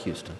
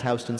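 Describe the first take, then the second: First: Said in the usual way. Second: "Houston" said as HOW-stun; local street pronunciation. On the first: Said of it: "spelled like Houston". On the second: Shown as a demonstration. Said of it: "pronounced Houston".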